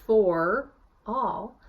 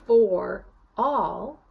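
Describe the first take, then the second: No difference in how they are said.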